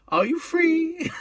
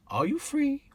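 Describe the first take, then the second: First: Very high, slow, camp sing-song; John Inman impression. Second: High camp lilting question; John Inman impression. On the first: John Inman hailing the cabbie at King's Cross, very high and slow. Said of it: "John Inman come along and said to him". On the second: Cabbie imagining John Inman hailing his cab, camp and high. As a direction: hit his famous catchphrase high. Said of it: "John Inman come to his cab and say".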